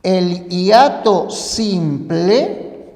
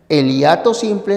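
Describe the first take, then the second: First: Slow, deliberate naming of the term. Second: Said in the usual way. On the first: Shown as a demonstration. Teacher slowly names the first type for students, deliberate. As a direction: spell out the term word by word for the class. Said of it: "existen dos clases".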